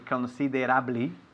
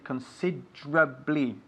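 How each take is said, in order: First: The middle E is sounded as a syllable. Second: The middle E is dropped, removing a syllable. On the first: The speaker calls it wrong. "we write considerably" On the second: The speaker calls it right. "but we pronounce it considerably. So the E, la E en medio, consider, uh, is lost"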